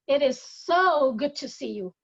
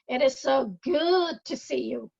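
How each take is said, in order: First: The word "so" carries the stress. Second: The word "good" carries the stress.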